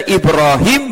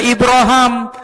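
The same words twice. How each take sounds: First: Ibrahim with a clear long i in the last syllable; Ibrahim reading. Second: Ibraham with an a in the last syllable, ending in ham; Ibraham reading. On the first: Teacher shows the class the Ibrahim reading. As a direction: say Ibrahim ending in him. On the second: Teacher shows the class the Ibraham variant. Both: Shown as a demonstration. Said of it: "bisa dibaca".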